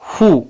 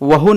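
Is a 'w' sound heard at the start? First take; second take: no; yes. First: It starts with 'h', no 'w' sound. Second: It starts with a 'w' sound. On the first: The speaker calls it right. "यहाँ डब्ल्यू silent है और ओ का sound ऊ है" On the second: The speaker calls it wrong. "इसे वहु नहीं पढ़ेंगे"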